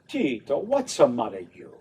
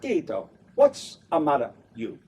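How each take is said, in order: First: The line flows smoothly like one musical phrase. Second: The line is broken into short, choppy pieces. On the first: The speaker calls it right. "but it's like this, smooth" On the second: The speaker calls it wrong. "So it's not"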